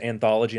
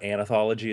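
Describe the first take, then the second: First: It has four syllables with no extra vowel. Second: It has five syllables with an extra vowel. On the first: The speaker calls it right. "knowing how to pronounce it anthology" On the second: The speaker calls it wrong. "not anathology, as I like to say"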